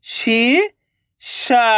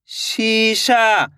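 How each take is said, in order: First: शीशा drawn out very slowly, each sound held. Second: Said in the usual way. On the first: Shown as a demonstration. (शीशा को बहुत धीरे खींचकर बोलें) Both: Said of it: "तो मिलके बन जाएगा".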